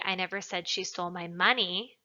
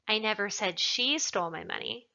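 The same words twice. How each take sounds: First: The word 'money' is emphasized. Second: The word 'she' is emphasized. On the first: She stole something other than the money. "Implies that she stole something else, not the money" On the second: Someone else stole it. "Perhaps somebody else stole it"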